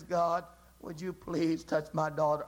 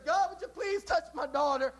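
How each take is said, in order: First: Lower, earnest, pressing plea; desperate plea. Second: Higher, polite asking voice with little at stake; a light, hopeful request that can take no for an answer; desire's plea. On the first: Mother tugging God's coattail again, low desperate plea. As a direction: hold on and refuse to let go. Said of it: "desperation tucks him on the coattail". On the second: Mother asking God, first time, lightly pleading. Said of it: "Desire says". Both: Acted.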